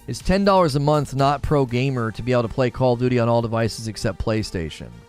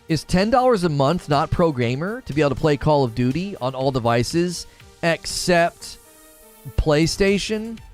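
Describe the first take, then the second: First: It is read at a normal pace. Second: It is read really slowly.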